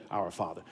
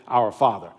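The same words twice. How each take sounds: First: Lower, much softer echo of "Our Father"; soft, low repeat of "Our Father" as the family's response; family echoing softly. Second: Said in the usual way. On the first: Shown as a demonstration. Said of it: "the rest of the family would say". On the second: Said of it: "So the child would say".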